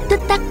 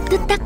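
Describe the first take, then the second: No difference in how they are said.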